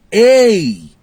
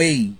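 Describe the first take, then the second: First: Loud high hey, preacher-style; mocking false prophet call. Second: Said in the usual way. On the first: Preacher mocking false prophets' showy "Ei!" call. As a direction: mimic the showy prophet's cry. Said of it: "Já observou isso?". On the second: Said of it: "É sempre um".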